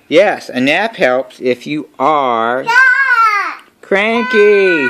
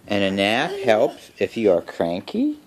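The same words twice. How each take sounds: First: Slow build to a high, loud CRANKY; exasperated, bursting out on the word cranky. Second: Said in the usual way. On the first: A narrator's reading. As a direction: drag it out, then holler CRANKY. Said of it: "he says loudly".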